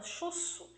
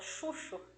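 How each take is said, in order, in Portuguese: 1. A consoante do meio é um som de s. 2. A consoante do meio é um som de ch. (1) "alguns linguistas da língua portuguesa falam que ele se chama chuço" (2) "a gente fala errado, a gente fala chucho"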